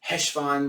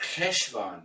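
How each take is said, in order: First: The word starts with a plain h sound. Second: The word starts with a throaty ch sound. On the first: "when they're saying it quickly with an H" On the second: "the Germanic ch, like Bach"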